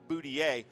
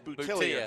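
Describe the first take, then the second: First: The name is said with a non-American pronunciation. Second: The name is said with an American pronunciation. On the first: The speaker calls it wrong. "We always call him Boutillier" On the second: The speaker calls it right. "He likes the more American pronunciation"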